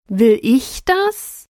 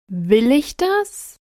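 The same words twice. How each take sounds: First: The stress is on the word 'ich'. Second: The stress is on the word 'Will'.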